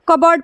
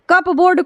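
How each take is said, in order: First: The p sound is left out. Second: The p sound is clearly pronounced. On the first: The speaker calls it right. "कबर्ड पढ़ रहे हैं" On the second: The speaker calls it wrong. "कप बोर्ड कोई नहीं पढ़ता है"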